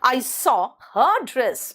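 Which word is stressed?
her. The stress is on the word her.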